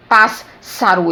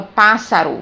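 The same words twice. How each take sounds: First: "pássaro" said slowly with a long double s, pass-saro; wrong, doubled s. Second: Said in the usual way. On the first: Shown as a demonstration. Teacher showing students the wrong way: "pássaro" slow with a long ss. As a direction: drag out the ss in "pássaro" as if both letters sound. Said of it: "eu não falo". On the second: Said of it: "eu falo pássaro".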